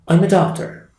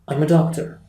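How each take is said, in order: First: The first words are linked, fast and weak. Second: The first words are linked, fast and weak.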